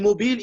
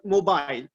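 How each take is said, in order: First: The word is pronounced in a French-influenced way. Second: The word is pronounced in the English way. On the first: The speaker calls it wrong. "because we speak French, many people say mobile" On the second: The speaker calls it right. "instead of mobile"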